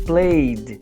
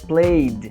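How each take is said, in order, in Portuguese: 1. A palavra termina com um som de d curto. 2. A palavra termina com um som de d curto.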